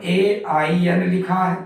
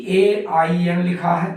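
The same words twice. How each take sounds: The two takes are said the same way.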